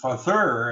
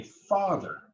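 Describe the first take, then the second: First: "father" as fa-THER, second syllable punched; wrong-syllable stress. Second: "father" as high FA, falling -ther; natural stress. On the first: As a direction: hit the end of "father" hard. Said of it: "Everyone say". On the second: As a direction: stress the first syllable of "father". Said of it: "and now say". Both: Shown as a demonstration.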